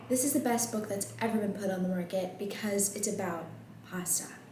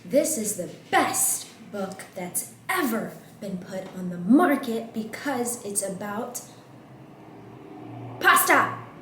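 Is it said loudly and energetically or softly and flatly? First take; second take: softly; loudly. First: It is said softly with little energy. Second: It is said loudly with lively energy.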